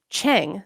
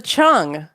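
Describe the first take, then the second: First: Cheng said with an E as in "bet"; common mispronunciation. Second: Chung with an "uh" vowel, rhyming with "lung"; correct pronunciation. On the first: Podcaster showing how most people say the vault's name, common mispronunciation. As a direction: say Cheng as it is spelled, with an "eh". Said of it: "most people pronounce it that way". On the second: Podcaster correcting listeners on the vault's name, correct pronunciation. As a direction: say Chung with "uh" in place of the spelled E. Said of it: "is pronounced Chung". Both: Shown as a demonstration.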